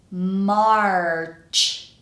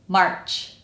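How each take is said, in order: First: The word is said slowly and carefully. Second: The word is said at normal speed. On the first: "The first time kind of slowly" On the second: "the second time normally"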